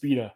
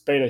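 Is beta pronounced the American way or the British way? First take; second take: British; American. First: The word is said with a British pronunciation. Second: The word is said with an American pronunciation. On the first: "Not in the UK, it's beta" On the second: "It's beta here in the States"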